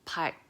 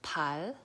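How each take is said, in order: First: A started l sound is cut off by k. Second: The syllable ends with a plain l sound. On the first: The speaker calls it right. "it tries to do the L sound, but it's gonna stop it with the G sound" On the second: The speaker calls it wrong. "it's not pal"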